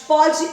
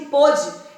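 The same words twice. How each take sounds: First: Pode with an open o: PÓ-de. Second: Pôde with a closed, rounded o: PÔ-de. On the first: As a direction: say pode slowly with a wide open first vowel. (pode com o aberto, pó-de) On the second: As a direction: say pôde slowly with a rounded first vowel. (pôde com o fechado) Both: Shown as a demonstration. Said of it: "entre os verbos pode e pôde".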